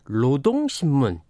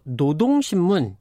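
First: The word begins with an l sound. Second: The word begins with an n sound. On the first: This is the northern standard form. "북쪽에서는 노동신문 이렇게 말하고 씁니다" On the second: This is the southern standard form. "노동신문 이렇게 우리는 쓰고 말하고"

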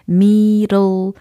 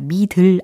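First: It is said with an English pronunciation. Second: It is said as Korean syllables, mi-deul. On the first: The speaker calls it right. "아니고 middle" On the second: The speaker calls it wrong. "미들 아니고"

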